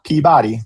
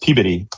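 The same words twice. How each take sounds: First: It is said the way outsiders say it. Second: It is said the local Boston way. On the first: The speaker calls it wrong. "Don't say that" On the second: The speaker calls it right. "which is how you say it, near Boston"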